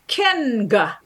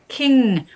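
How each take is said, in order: First: A hard g sound follows the nasal. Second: It ends in a single nasal sound. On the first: The speaker calls it wrong. "you don't say kinga" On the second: The speaker calls it right. "You say sing, king, where it's actually one sound"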